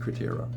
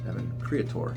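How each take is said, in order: First: The name ends with an added '-tero' sound. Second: The name ends with a short '-tor' sound. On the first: The speaker calls it wrong. "I thought it was Createro for three years almost" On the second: The speaker calls it right. "that's when I learned to pronounce Evan's name"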